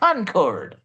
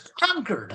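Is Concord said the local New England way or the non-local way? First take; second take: non-local; local. First: It is said the non-local, outsider way. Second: It is said the local New England way. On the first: An outsider says it this way. "not Concord" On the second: A local would insist on this form. "some Yankee in the class who's going to give me a hard time and say, it's Concord"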